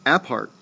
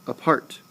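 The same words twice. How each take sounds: First: Apart with a full, stressed A as in "app"; wrong first-syllable stress. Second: Apart with a faint "uh", then strong part; barely utter the a in apart; stress on second syllable. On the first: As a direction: hit the opening a of apart hard. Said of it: "You never say apart". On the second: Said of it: "you barely utter the syllable". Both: Shown as a demonstration.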